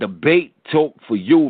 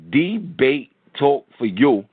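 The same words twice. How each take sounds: First: The phrase is spoken at a fast pace. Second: The phrase is spoken at a slow pace. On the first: "I speak fast because I'm from New York" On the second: "I'm going to slow it down"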